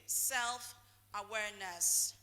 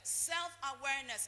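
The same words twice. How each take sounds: First: Drawn-out stress. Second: Said in the usual way. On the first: Shown as a demonstration. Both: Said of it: "what did I say is number one".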